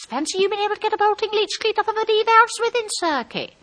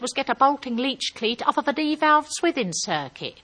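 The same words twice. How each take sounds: First: Very high, sustained marvelling voice; exaggerated high-voiced admiration; high-pitched gushing. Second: Said in the usual way. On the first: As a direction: echo the jargon back way up high. She gushes, echoing his technical words.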